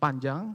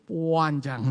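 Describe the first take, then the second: First: The word is said at normal length. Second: The word is stretched out and emphasized. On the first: Something is long. "Jadi misalnya panjang" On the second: Something is extremely long. "sangat panjang itu panjang"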